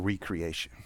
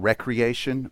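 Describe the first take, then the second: First: The word begins with a long 'ree' sound. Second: The word begins with a short 'reck' sound. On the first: It means making something new again. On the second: It means leisure and play.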